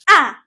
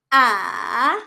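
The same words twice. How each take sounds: First: The pitch sounds sharp, as if angry. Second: The pitch goes down, then up. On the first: "para ka lang nagagalit" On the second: "para siyang letter V. Bababa muna and then tataas"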